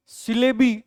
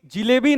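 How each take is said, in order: First: "सिलेबी" starting with a clear s; correct plural pronunciation. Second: "जिलेबी" starting with a j sound; mistaken pronunciation. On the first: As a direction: say "सिलेबी" with si-, not ji-. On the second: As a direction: say "जिलेबी" loudly with ji-, not si-. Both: Shown as a demonstration. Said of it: "जिलेबी नहीं".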